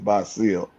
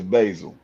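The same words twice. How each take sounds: First: The name is said the Arabic way. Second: The name is said the American way.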